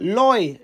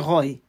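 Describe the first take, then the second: First: The name begins with an L sound. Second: The name begins with an R sound. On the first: "le R, ils entendent ça comme un L" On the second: "mon nom c'est Roy"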